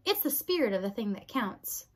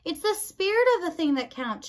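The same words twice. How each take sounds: First: Said in the usual way. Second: Higher, raised voice for poor ears; mild shout, pitched high; shouted repeat. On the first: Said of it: "she said to Meg". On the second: A narrator's reading. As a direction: repeat it loudly so she hears. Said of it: "shouted P".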